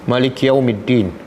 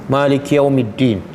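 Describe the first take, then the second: No difference in how they are said.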